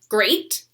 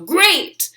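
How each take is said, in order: First: The word is said in an ordinary voice. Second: The word is said loudly in a monster voice. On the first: "I'm going to practice saying it normally" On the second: "say it loud like a monster"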